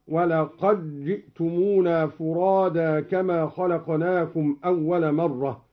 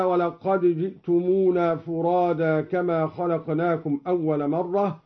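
First: ولقد جئتمونا merged as "walaqajji'tumuna"; slow recitation, ولقد fused into جئتمونا with double j; idgham. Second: Said in the usual way. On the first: Shown as a demonstration. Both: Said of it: "أدغم الدوري الدال في الجيم".

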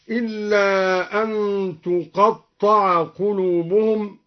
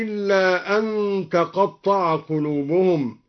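First: تقطع with "u" on the ta, "tuqatta'a"; damma on ta. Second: Said in the usual way. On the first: Shown as a demonstration. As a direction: recite تقطع slowly as passive "tuqatta'a". (تقطع بضم التاء) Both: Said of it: "قرأ الدوري بضم التاء هكذا".

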